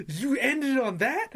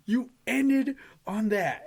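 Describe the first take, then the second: First: High, loud, drawn-out incredulous question; mock-outraged, slow questioning yelp; heated disbelief. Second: Slower, stretched-out outrage, falling at the end; mock-outraged, drawn-out exclamation; heated disbelief. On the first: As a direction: replay the outrage, pitch rising at the end. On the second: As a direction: spell out the indignation in a high, loud voice. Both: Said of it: "I remember being heated".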